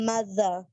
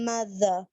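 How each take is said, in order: Both takes have the same delivery.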